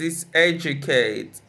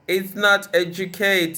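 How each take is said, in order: First: The stress falls on the first syllable. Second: The stress falls on a later syllable. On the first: The speaker calls it right. "usually stressed on the third syllable from the end" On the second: The speaker calls it wrong. "It's not"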